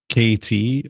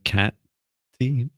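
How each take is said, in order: First: The first syllable sounds like the letter K. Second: The first syllable sounds like the word cat. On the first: "let me know if it's K T or Cat T" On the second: "let me know if it's K T or Cat T"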